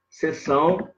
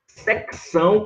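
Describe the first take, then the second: First: Said in the usual way. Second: Secção with the c sounded, sec-ção; secção pronounced sek-são. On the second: Shown as a demonstration. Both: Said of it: "que você pode escrever assim".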